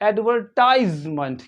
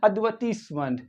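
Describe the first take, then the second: First: It is said with an American English accent. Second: It is said with a British English accent. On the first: "American English में पढ़ेंगे एडवर्टाइजमेंट" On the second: "British English में पढ़ा जाएगा एडवर्टीजमेंट"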